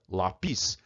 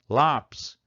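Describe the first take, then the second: First: The stress is on the last syllable. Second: The stress is on the first syllable. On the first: The speaker calls it wrong. "se a gente não acentuar, como é que a gente deveria pronunciar essa palavra?" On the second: The speaker calls it right. "Você comprou um lápis"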